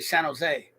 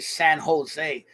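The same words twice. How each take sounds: First: The two words are run together as one. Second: The two words are said separately and clearly. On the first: "We just say it all together" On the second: "We don't say San Jose"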